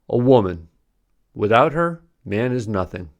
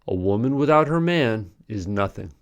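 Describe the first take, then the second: First: There are pauses after "woman" and after "her". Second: There is a pause just before "is". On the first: The man is nothing. "pausing differently gives a new meaning. ... implying the man is nothing" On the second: The woman is nothing. "If you pause before is, it implies the woman is nothing"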